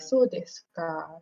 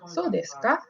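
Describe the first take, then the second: First: The pitch falls at the end. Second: The pitch rises at the end. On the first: It means 'I see'. "if it's like going down the tone" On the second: It asks a question. "the tone is going up a bit"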